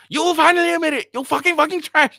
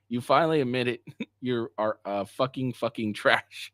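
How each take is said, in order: First: Much higher and louder, fast, mocking screech; mocking shrill girlfriend. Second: Said in the usual way. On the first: Mocking the texts of an angry ex in a squeal. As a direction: squeal it out like a mocking caricature of her. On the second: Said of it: "That's what I'm hearing".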